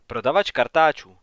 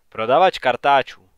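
First: Mild, explanatory answer; trying to explain. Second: Louder, mildly growling repeat; growled. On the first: Wife tries to explain the visitor to her husband, mildly explanatory. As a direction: offer it as a tentative explanation. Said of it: "pokusila se mu to Mary vysvětlit". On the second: Husband scornfully echoes his wife's explanation, growling louder. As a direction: throw it back as an understated growl. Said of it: "zavrčel Art". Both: A narrator's reading.

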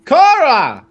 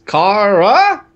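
First: "Kara" called out, higher and falling; called-out name. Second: "Kara" drawn out slowly, ending on a rise; questioning pronunciation. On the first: Acted. Dumbledore addressing his colleague by name, "Kara" exclaimed. Calls the name after trying it. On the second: Shown as a demonstration. Asking how to pronounce the name, "Kara" slow and rising. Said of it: "how do I pronounce that".

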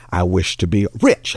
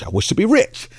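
First: Said in the usual way. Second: High excited wish. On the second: Acted. Pastor voicing the eager wife's wish, squealed high. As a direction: pitch the repeat way up, eager. Woman repeats her wish.

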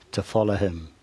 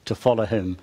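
First: "follow" leaned on with a falling tune; preacher stressing "follow". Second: "follow" repeated with a slight falling stress; gentle reminder stressing "follow". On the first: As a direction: give "to follow him" a firm, falling push on "follow". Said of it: "Emphasis on the word "to follow him". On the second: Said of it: "emphasis on the word". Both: Shown as a demonstration.

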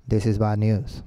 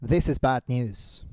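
First: Low monotone read-out; lifeless wrong way. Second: Slow, soft shadowing repetition; imitating the video speaker. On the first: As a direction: drone it as if it meant nothing. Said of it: "No, así no". (monótono y grave, sin emoción) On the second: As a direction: echo it gravely, taking your time. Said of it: "tienes que imitar lo que él hace". (imitando al orador, lento y suave) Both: Shown as a demonstration.

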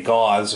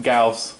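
First: "aw" vowel, like gauze; Gauss mispronounced as gauze. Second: "ow" vowel in Gauss; Gauss rhyming with house. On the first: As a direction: say Gauss wrongly as "gawz". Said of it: "he wanted me to say gauze". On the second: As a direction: say Gauss as "gowse". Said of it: "It's pronounced Gauss". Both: Shown as a demonstration.

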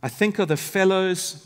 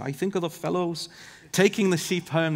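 First: Said in the usual way. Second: Amateur Scottish shepherd accent; bad Scottish accent. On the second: Shown as a demonstration. Preacher quoting an old shepherd, horrible Scottish accent. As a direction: attempt a shaky-quality Scottish accent. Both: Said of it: "maybe we need to try the accent".

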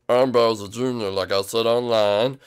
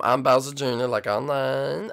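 First: Lightly put-on manly voice, drawn out; slow it down to sound like a man. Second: Said in the usual way. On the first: Boy impressing his date, in a put-on manly voice. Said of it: "I like your manly voice". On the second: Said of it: "I mean".

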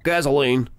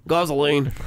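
First: Said in the usual way. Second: Gasoline in a bad Australian accent, broad gahz vowel. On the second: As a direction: say gasoline like an Aussie, badly. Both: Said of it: "horrible Australian accent".

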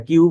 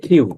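First: Said in the usual way. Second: কিউ said "khiu", with a puff after K; aspirated Q. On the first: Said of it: "যেটাকে আমরা কিউ বলি". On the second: Shown as a demonstration. Teacher corrects the usual letter name, aspirated Q. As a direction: open কিউ on aspirated খ rather than plain ক. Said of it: "এটার pronunciation হবে".

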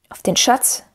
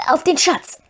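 First: Stern question with rising tune. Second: High creature voice swearing an oath; Gollum. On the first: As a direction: challenge it sternly, as if astonished at the nerve. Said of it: "die Strenge seines Tons". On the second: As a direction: pitch it up as a wheedling creature. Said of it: "sagte Gollum plötzlich mit klarer Stimme". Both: A narrator's reading.

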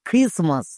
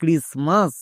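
First: "ক্রিসমাস" with an aspirated KH at the start; "ক্রিসমাস" opening on a puffed খ, silent T; pronounced with KH. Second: "ক্রিসমাস" with a plain hard K, silent T; "ক্রিসমাস" as kris-mas, no puff after K; pronounced with K. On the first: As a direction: say "ক্রিসমাস" as khris-mas. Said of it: "একে আরেকভাবে উচ্চারণ করা যায়". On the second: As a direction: say "ক্রিসমাস" starting with unaspirated k. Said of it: "পুরোটার উচ্চারণ কি হলো". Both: Shown as a demonstration.

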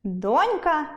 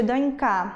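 First: Said in the usual way. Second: «донька» stressed on the final KA; don'-KA, land on the end of «донька»; wrong stress. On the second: Shown as a demonstration. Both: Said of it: "буде донька".

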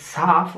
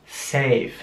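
First: "saf" with a short German a; "saf" said the German way, flat short a; "saf" with a German a sound; wrong German a. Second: "safe" with a long ä-like vowel; "safe" drawn out slowly, vowel like ä; "safe" said as in English, a like Ä. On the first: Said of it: "richtig auszusprechen, also nicht saf". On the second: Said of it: "sondern safe, wie ein Ä". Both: Shown as a demonstration.

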